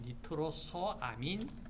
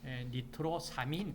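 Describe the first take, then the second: First: The 'o' vowel before 'amin' is kept. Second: The 'o' vowel before 'amin' is dropped. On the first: The speaker calls it right. "이렇게 하는 것이 정확한 용어이다" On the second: The speaker calls it wrong. "니트로사민 그러지 말고"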